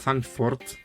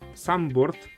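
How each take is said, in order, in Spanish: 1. El nombre se dice con sonidos de estilo holandés. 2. El nombre se dice con sonidos de estilo español.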